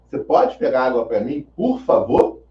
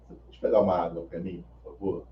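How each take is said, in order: First: The request sounds harsh and authoritarian. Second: The request sounds calm and polite. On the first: A rude demand that provokes an argument. "Ele entonou a voz de uma forma mais autoritária, é, grosseira" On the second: A courteous request the listener gladly fulfils. "ele falou tranquilamente, com educação"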